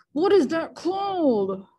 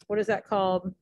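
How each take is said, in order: First: Louder, higher, drawn-out "what is that called"; put-on exasperation. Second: Said in the usual way. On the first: Teacher stumped while Googling a meter term, mock-exasperated drawn-out question. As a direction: wail the question slowly in a silly voice.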